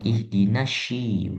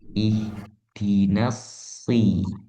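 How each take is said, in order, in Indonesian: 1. Konsonannya adalah bunyi sy. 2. Konsonannya adalah bunyi s biasa. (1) "bukan ihdinasyi" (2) "Harusnya itu huruf so"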